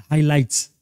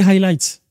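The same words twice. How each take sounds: First: « Highlights » sans le h, « i-laïts » à la française; « Highlights » répété seul, accent anglais perdu; English pronunciation slip. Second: « highlights » avec h aspiré, « haï-laïts » bien anglais; English pronunciation. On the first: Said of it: "Excusez-moi pour mon anglais". (le coach répète « Highlights » sans h aspiré) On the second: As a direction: reprendre « highlights » avec un vrai accent anglais. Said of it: "je perds mon accent anglais". (le coach corrige son anglais sur « highlights ») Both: Shown as a demonstration.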